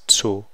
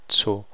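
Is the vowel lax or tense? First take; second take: tense; tense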